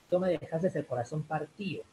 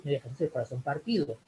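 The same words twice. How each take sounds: First: "partido" pronounced par-TÍ-o, the d left out; dropped d. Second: Said in the usual way. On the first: Shown as a demonstration. Teacher quoting a song lyric, "partido" contracted to partío. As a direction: run "partido" into partío, as the singers do. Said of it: "ellos dicen más partido". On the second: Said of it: "lo correcto que debería decir".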